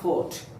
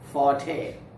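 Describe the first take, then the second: First: It sounds exactly like the word fort. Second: It does not sound like the word fort. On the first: The speaker calls it wrong. "Not fort" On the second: The speaker calls it right. "This is forte"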